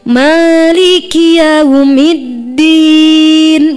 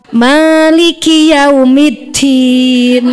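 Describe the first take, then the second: First: The d sound is said cleanly without breath. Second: The d sound is said with an audible breath. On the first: The speaker calls it right. "Jadi dal maliki yaumiddin" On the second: The speaker calls it wrong. "Jadi ada hamesnya"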